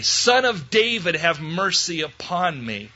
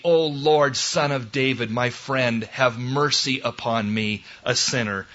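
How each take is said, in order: First: Loud tenacious cry. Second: Subdued, humble plea; humble prayer. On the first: Bartimaeus refusing to be quieted, crying out loudly. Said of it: "all the more loudly". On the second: Preacher praying as a sinner for mercy, humble. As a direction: pray meekly, settling downward. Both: Acted.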